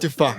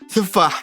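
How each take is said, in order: First: The word starts with a t sound. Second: The word starts with a th sound. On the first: This marks the speaker as from Jeddah. The speaker calls it wrong. "بس لا تقول تفاح" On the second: This is acceptable in Riyadh. The speaker calls it right. "ممكن تقول ثفاح"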